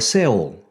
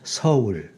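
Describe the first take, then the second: First: The word is said as a single syllable. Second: The word is said as two distinct syllables. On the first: It is read the way the English spelling suggests. The speaker calls it wrong. "An average foreigner, unfamiliar with this system, might pronounce" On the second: It is the actual Korean pronunciation. The speaker calls it right. "with a soft S and with two distinct syllables"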